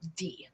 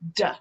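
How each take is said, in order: First: The letter is said as its alphabet name. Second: The letter is said as its bare sound. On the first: The speaker calls it wrong. "instead of saying" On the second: The speaker calls it right. "use the sound of the letter instead of the name of the letter"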